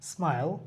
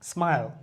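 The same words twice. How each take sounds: No difference in how they are said.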